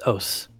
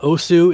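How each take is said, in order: First: The word ends on the s, no vowel. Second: A final u vowel is heard after the s. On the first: The speaker calls it right. "that is the way you say os" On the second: The speaker calls it wrong. "It's not osu"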